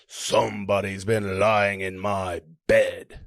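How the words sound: It is said in a deep, gruff voice.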